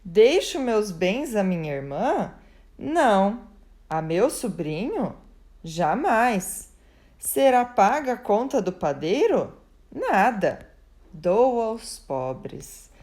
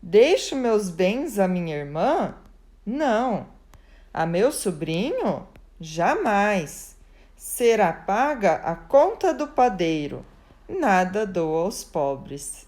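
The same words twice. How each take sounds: First: "Será paga a conta do padeiro?" rises as a question, then "Nada." is cut off sharply before a very slow "Dou aos pobres."; the poor man's version, a question, then a clipped "Nada." and a slow close; the poor man's punctuation read aloud. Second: Questions rising on "irmã?" and "sobrinho?", a curt "Jamais." then a flat statement "Será paga a conta do padeiro."; the baker's version, rising questions and a firm statement; baker's punctuation read aloud. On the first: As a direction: stop hard after "Nada" and slowly hand it all to the poor. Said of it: "fez esta interpretação".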